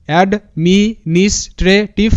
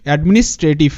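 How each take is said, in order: First: Slow, with gaps between syllables. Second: Said in the usual way. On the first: Shown as a demonstration. Teacher puts the broken word together for students, syllable by syllable. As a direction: sound out administrative piece by piece. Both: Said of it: "ভাঙবো তারপরই উচ্চারণটা করব".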